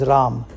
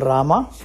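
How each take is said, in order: First: Northern Indian form, with the final vowel dropped. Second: Southern Indian form, with the final vowel kept.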